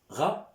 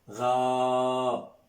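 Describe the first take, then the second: First: The vowel is cut short. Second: The vowel is held long. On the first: "on stop" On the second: "on prolonge, hein, le Fetha"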